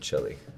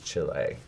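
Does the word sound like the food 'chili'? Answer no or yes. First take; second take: yes; no. First: The word sounds like the food 'chili'. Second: The word does not sound like 'chili'. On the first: The speaker calls it wrong. "not Chile" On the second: The speaker calls it right. "the way to pronounce it is Chile"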